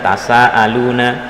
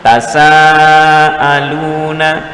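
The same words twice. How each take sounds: First: The long vowel is held only briefly. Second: The long vowel is drawn out much longer. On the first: The speaker calls it wrong. "tidak dibaca tasaaluna, harus panjang" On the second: The speaker calls it right. "harus panjang"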